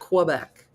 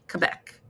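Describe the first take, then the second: First: It is not said the way Quebecers say it. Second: It is said the way Quebecers say it. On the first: The speaker calls it wrong. "not Quebec" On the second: The speaker calls it right. "if you really want to speak like a Quebecer, you pronounce it Quebec, like Quebec"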